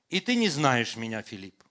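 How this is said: It is said with a flat statement tune. A plain observation of fact.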